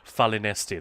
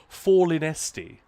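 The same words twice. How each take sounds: First: The first vowel is a flat 'a' sound. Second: The first vowel sounds like 'or'. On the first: "I've always said Falinesti" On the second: "So every A becomes or"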